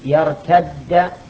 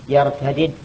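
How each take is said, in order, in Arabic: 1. تُدغم الدالان فتصيران دالاً واحدة مشددة. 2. تبقى الدالان منفصلتين بحركة تفصل بينهما. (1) "الإدغام في قوله من يرتد إدغام جائز لا واجب" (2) "يجوز أن تقول يرتد وأن تقول يرتدد"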